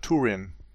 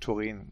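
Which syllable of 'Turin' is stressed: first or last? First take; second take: first; last. First: The stress is on the first syllable. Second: The stress is on the last syllable. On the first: The speaker calls it wrong. "er sagt immer Turin" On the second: The speaker calls it right. "statt Turin"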